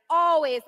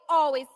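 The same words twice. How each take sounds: The two takes are said the same way.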